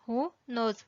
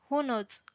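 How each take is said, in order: First: "Who knows" spaced out for learners; separated words. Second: Said in the usual way. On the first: Shown as a demonstration. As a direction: pause between "Who" and "knows". Teacher repeats with words separated.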